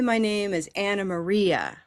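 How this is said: The name is said with an English pronunciation. "If we want to sound English all the way through"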